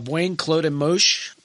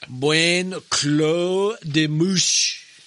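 First: The name is said in a plain, neutral tone. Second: The name is said with a snobbish, affected tone.

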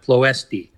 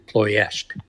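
First: The name is said as English readers read it. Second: The name is said close to Romanian pronunciation. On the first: The speaker calls it wrong. "we look at it and it should come out Ploesti" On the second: The speaker calls it right. "in the Romanian, it's much closer to Ploesti"

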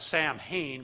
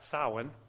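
First: The name is said in an anglicized pronunciation. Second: The name is said in its original pronunciation. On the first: This is how people commonly say it. The speaker calls it wrong. "we would pronounce it Samhain" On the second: This is the authentic pronunciation. The speaker calls it right. "but it's actually Samhain"

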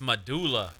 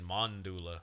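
First: The word is said without an added n sound. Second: The word is said with an added n sound. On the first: The speaker calls it right. "It's medulla" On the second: The speaker calls it wrong. "You're saying mandula"

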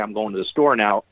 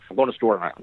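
First: It is said slowly with clear rhythm. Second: It is said fast and run together.

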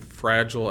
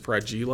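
First: The word is pronounced the standard way. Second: The word is pronounced in an odd, distorted way. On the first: The speaker calls it right. "mispronouncing fragile as" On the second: The speaker calls it wrong. "mispronouncing fragile as fragile"

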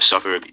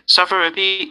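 First: It is said in a low, deep voice. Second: It is said in a high head voice.

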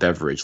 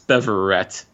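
First: The name ends with an 'ij' sound. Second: The name ends with an 'et' sound. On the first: The speaker calls it wrong. "I called him Beveridge last week" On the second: The speaker calls it right. "but it's Beverett"

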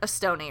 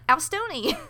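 First: The name does not begin with an 'ow' sound. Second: The name begins with an 'ow' sound. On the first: The speaker calls it right. "But it's like a Stoney or something" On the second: The speaker calls it wrong. "So it's like he bit you because he's a shark"

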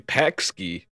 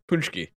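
First: It is said letter by letter, like 'pakski'. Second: It is said the Polish way, unlike the spelling. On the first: This is what the spelling suggests. "It should be pakski" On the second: This is how the word is actually said. "but it's pączki"

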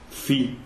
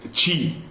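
First: The word begins with a th sound. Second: The word begins with a ch sound. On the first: This is the Spanish reading of the letters. "in Spanish is ci" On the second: This is the Italian reading of the letters. "what in Italian would be ci"

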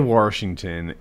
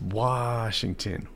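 First: It is said with an r before the sh. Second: It is said with no r before the sh. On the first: The speaker calls it wrong. "He'd say Washington" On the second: The speaker calls it right. "it's Washington, not Warsh"

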